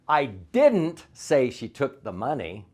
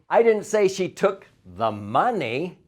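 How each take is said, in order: First: The stress falls on the word didn't. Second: The stress falls on the word money.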